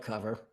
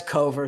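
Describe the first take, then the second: First: "cover" said as KUV-er; first syllable of "cover" rhymes with love; everyday pronunciation. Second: "Cover" said as KOH-ver; first syllable of "Cover" rhymes with go; long-o pronunciation. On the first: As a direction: say "cover" with a short u. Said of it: "spelled like cover". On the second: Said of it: "spelled like cover, but Cover". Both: Shown as a demonstration.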